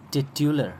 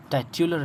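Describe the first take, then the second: First: टिट्युलर with short "tit" as first syllable; correct pronunciation. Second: टाइट्युलर with a long "tie" opening; wrong pronunciation. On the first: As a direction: say टिट्युलर as tit-yu-lar, no "tie". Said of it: "ये है इसका pronunciation". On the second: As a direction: say टाइट्युलर as if built on title. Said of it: "टाइट्युलर नहीं पढ़ेंगे". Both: Shown as a demonstration.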